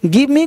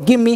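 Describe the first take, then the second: First: Both words are said fully and separately. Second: The words run together into one short form.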